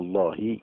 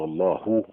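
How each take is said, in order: First: The final h is followed by i. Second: The final h is followed by u. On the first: "بالكسره ... ما يصحش" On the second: "بالضمه ما يصح"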